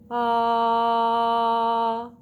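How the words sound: The vowel starts smoothly, breath and voice together. The speaker calls it right. "A balanced onset is going to sound like ah"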